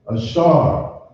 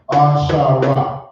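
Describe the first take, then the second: First: The word ends on a consonant, no extra vowel. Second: The word ends with an extra final vowel. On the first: The speaker calls it right. "you got it right" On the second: The speaker calls it wrong. "But that's not how it's pronounced"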